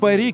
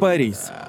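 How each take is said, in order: First: The name ends on the vowel, without s. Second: The name ends with a clear s sound. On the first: This is the French way of saying the name. "все его называют «Пари», как во французском" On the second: This is the English way of saying the name. "На английском звучит как «Парис»"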